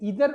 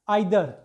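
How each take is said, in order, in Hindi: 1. पहला स्वर 'ee' जैसा सुनाई देता है। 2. पहला स्वर 'eye' जैसा सुनाई देता है। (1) "अमेरिका वाले दोनों को इधर इधर से पढ़ते हैं" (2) "आइदर पढ़ते हैं ब्रिटिश वाले"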